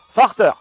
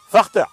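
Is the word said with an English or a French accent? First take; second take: French; French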